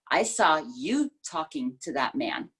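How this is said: The word "you" carries the main stress. It was you, not me, who talked to him. "it's all about you talking to this person instead of maybe me talking to the person"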